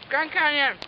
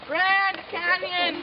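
First: It is said flatly, without enthusiasm. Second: It is said with lively enthusiasm.

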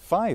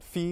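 First: The vowel follows the usual English style. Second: The vowel follows a Greek or Italian style. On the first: It is the long-standing usual form in English. "the normal regular pronunciation of that Greek letter in English" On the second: The speaker wants to sound more Greek or Italian. "they want to sound more Italian or Greek"

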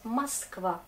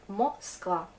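First: The unstressed first vowel sounds like A. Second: The unstressed first vowel sounds like O. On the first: This is how the word is actually spoken. "mais on prononce Moskva" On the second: This is how the word is written. "mais on écrit Moskva"

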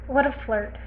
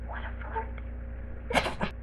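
First: It is said in a normal speaking voice. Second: It is said in a soft whisper. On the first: The speaker calls it wrong. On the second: The speaker calls it right.

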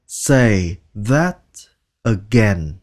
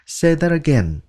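First: The phrase is said slowly and deliberately. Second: The phrase is said at normal conversational speed.

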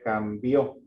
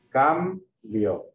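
First: The stress is on the last syllable. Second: The stress is on the first syllable. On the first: "si ponemos una tilde sería cambió" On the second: "como la fuerza va en la cam"

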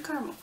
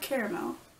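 First: The middle syllable is dropped. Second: All three syllables are pronounced. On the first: This is the speaker's everyday pronunciation. "I still say caramel" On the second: This follows the written form. "even though it's spelled caramel"

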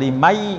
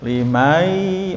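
First: The word begins with a hard, abrupt onset. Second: The word begins with a soft, gentle onset. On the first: The speaker calls it wrong. "jangan limai, enggak gitu ya" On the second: The speaker calls it right. "masuknya lembut ya"

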